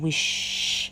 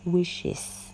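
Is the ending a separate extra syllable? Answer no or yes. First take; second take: no; yes. First: Only an s sound is added, no extra syllable. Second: The ending forms an extra syllable, es. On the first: The speaker calls it wrong. "kalau hanya ditambah S nanti bunyinya" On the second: The speaker calls it right. "kita harus tambah dengan E S"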